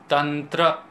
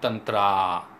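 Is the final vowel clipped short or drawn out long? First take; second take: clipped short; drawn out. First: The final vowel is short and clipped. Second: The final vowel is long and drawn out. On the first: The speaker calls it right. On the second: The speaker calls it wrong.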